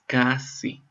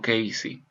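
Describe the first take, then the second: First: The first vowel sounds like the 'a' in cat. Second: The first vowel sounds like the 'a' in day. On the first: The speaker calls it right. "Es Cassie" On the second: The speaker calls it wrong. "no Casey"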